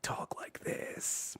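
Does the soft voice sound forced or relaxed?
forced. The soft voice sounds strained and forced.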